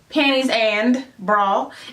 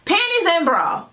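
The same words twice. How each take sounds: First: The d at the end of "and" is pronounced. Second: The d at the end of "and" is dropped. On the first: "it's not panties and bra" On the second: "It's panties and no D bra"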